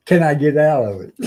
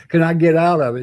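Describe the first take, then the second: First: Loud, pleading Navy gripe; typical Navy talk. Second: Mock sailor whine, higher and louder; the classic Navy dodge, played up; typical Navy talk. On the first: Retold or imitated. Sailor asking his chief to get him out of duty, in Navy talk. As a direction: beg off it like a sailor. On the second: Sailor showing the crowd typical Navy talk, hammed-up. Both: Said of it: "Typical Navy talk".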